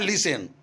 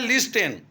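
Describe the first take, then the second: First: The T sound is silent. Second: The T sound is pronounced. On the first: This is how the word is actually read. "पढ़ते हैं लिसन" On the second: This is how the word is spelled. "लिखते हैं लिस्टेन"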